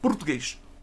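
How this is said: The vowels are reduced and nearly dropped. "Já em Portugal, as vogais são quase inexistentes"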